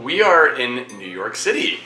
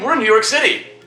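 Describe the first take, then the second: First: It is said with low energy. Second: It is said with moderate, casual energy.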